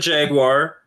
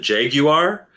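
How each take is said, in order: First: The word is said with non-British pronunciation. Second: The word is said with British pronunciation. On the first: "We call it the Jaguar" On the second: "if you're British, you could call it the Jaguar"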